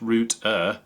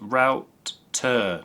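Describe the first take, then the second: First: The first vowel sounds like 'boot'. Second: The first vowel sounds like 'out'. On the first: The speaker calls it wrong. "not root-er" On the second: The speaker calls it right. "it's pronounced router"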